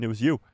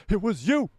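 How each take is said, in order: First: Said in the usual way. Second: Higher, swooping mock accusation; teasing, high-pitched reveal; playful accusation. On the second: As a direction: point the finger playfully, pitch jumping up.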